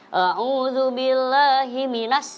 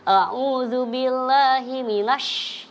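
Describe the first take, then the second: First: The last word ends with a plain s sound. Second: The last word ends with a sh sound. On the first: The speaker calls it wrong. "itu salah deh kata saya" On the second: The speaker calls it right. "itu kan sinya sing gede"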